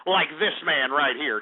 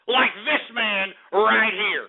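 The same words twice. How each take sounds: First: Said in the usual way. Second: "Like this man right here" drawn out, each word weighted; slow emphatic boast. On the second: Real, not acted. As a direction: stretch "this man right here" slowly and proudly. Repeats boast emphatically after laughing.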